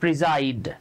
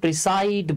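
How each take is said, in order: First: The middle consonant is a Z sound. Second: The middle consonant is an S sound. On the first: The speaker calls it right. "এটা উচ্চারণ হচ্ছে প্রিজাইড" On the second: The speaker calls it wrong. "আমরা অনেকে এটাকে প্রিসাইড বলি"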